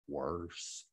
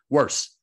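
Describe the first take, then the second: First: The word is drawn out slowly. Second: The word is said quickly and sharply. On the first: The speaker calls it wrong. "slow like a Texan" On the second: The speaker calls it right. "like a New Yorker"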